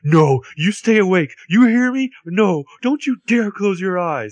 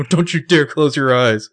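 First: High, slow, louder mock plea; pleading. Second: High, louder mock plea; mock pleading. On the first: Arya begging the wounded Ezra to stay awake, slow high plea. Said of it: "And Arya's like". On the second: Host repeating Arya's plea to Ezra, high mock plea. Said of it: "quoting Arya". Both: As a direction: beg him to stay awake.

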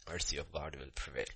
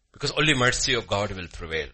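First: Low, much softer, solemn restatement; hushed repeat. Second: Louder, forceful preaching; emphatic declaration. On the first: Preacher repeats the truth to congregation, hushed. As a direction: let it sink in quietly. Same line repeated softly. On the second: Preacher tells congregation what will prevail, emphatic declaration. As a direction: declare it firmly to the room. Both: Real, not acted.

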